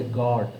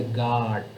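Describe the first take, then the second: First: "God" with a rounded "o" vowel and a clear final d; British God. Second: "God" with an open "ah" vowel, like "gah"; American God. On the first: Teacher contrasts the British "God" with the American one. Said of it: "British people will say God". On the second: Teacher shows the student the American "God". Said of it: "American people, they will say God". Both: Shown as a demonstration.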